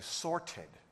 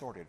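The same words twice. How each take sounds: First: The word is said in a British accent. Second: The word is said in an American accent. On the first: "If I were British, I'd be saying sorted" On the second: "I'm using American English. I'm saying sorted"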